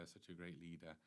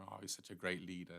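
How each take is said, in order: First: The same gushing words echoed in a fading, much softer voice; a sarcastic afterthought, far softer; mock praise repeated, much softer. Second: Mock fawning praise. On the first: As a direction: let the mocking echo die away softly. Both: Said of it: "He's praised like anything".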